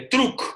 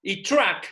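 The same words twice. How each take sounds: First: "Truck" read letter by letter as Spanish, "truk", higher and louder; spelled-out truck. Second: "truck" said the English way, a short "tak" sound; English pronunciation of "truck". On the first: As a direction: sound out "Truck" the way it is written, with the k at the end. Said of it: "con K al final". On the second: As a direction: say "truck" like an English speaker would. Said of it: "¿vos cómo se escribe?". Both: Shown as a demonstration.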